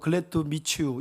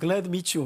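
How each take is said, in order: First: It is said with a non-native, Korean-style accent. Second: It is said with a native English accent. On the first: The speaker is an ordinary, non-native user of the language. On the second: The speaker sounds educated and of high status.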